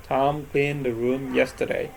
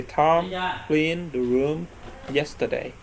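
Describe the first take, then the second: First: Said in the usual way. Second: Slow model sentence. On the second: Shown as a demonstration. Teacher giving students the example sentence, slow and deliberate. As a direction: spell the example out slowly, word by word. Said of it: "For example, say".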